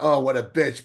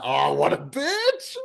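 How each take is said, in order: First: It sounds scornful and insulting. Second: It sounds admiring and amused. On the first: The person is genuinely disliked. "not in a" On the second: The person's toughness is appreciated. "in a good way ... but in a"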